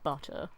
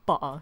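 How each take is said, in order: First: The middle T is clearly pronounced. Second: The middle T is dropped as a catch.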